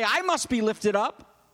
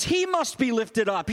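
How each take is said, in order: First: Slow, "I" set out as the rejected wording; slow contrastive emphasis on "I"; stress on I. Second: "He" stressed at the start, then falling. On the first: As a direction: lean on "I", rising at the end. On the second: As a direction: lean on "He" as the chosen word. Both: Shown as a demonstration. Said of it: "He doesn't say".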